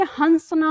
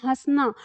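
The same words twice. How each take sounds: First: हंसना with a full n, as hans-na; हंसना read like swan plus -na, with an n sound; anusvara reading. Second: हंसना with a nasalized vowel and no n, as hãsna; हंसना spoken hãs-na with a nasal vowel, no separate n; chandrabindu pronunciation. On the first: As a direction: say हंसना with a clear n before the s. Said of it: "अगर हम इसकी ध्वनि और इसकी ध्वनि अगर एक प्रयोग करेंगे". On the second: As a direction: say हंसना as हँसना, the a nasal through the nose. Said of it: "लेकिन हम इसका उच्चारण क्या करते हैं?". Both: Shown as a demonstration.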